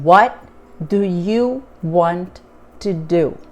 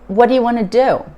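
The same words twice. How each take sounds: First: Each word is said separately and clearly. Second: The words run together in one reduced stream. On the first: This is how the written sentence looks. "Cada palavra separadamente" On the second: This is how people actually speak. "No inglês falado, ... você vai ouvir"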